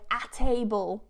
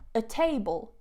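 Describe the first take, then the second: First: The word 'a' has a full open vowel. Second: The word 'a' is reduced to a schwa. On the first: The speaker calls it wrong. "like a really open a as in apple ... We don't do that" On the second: The speaker calls it right. "so you have the weak form a, so it would be with the schwa"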